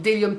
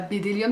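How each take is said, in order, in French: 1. Le mot commence par un son D, pas de B. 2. Le mot commence par un B prononcé. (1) "Le B est muet" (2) "c'est pas Bédélium"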